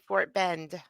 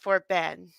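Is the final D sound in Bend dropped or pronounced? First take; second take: pronounced; dropped. First: The final D sound is clearly pronounced. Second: The final D sound is dropped.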